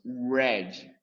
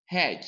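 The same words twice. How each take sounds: First: "red" slowly, starting with a true English r; correct red. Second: "Red" begun with a throaty h sound like Portuguese rr, as "hed"; wrong red. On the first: Teacher demonstrates the right way to say "red". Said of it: "Com R, nós falamos red". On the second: Teacher demonstrates the wrong way to say "Red". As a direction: say "Red" with the Brazilian h-like r. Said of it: "com H". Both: Shown as a demonstration.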